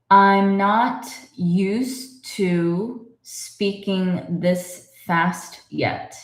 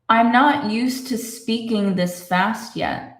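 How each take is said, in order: First: The sentence is read at a slow pace. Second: The sentence is read at a faster pace. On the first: "say it slowly" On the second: "let's read it a little faster"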